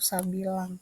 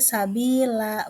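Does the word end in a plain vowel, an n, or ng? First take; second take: ng; vowel. First: The word ends with an ng sound. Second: The word ends on a long open vowel. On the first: The speaker calls it wrong. "atau sabilang" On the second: The speaker calls it right. "Jadi dibaca sabila"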